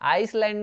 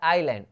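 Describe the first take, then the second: First: An s sound is heard in the middle. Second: No s sound is heard in the middle. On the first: The speaker calls it wrong. "आइसलैंड नहीं होता" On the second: The speaker calls it right. "एस जो है silent रहता है"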